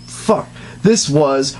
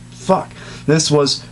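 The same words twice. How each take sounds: The two takes are said the same way.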